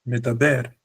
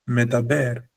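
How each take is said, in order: No difference in how they are said.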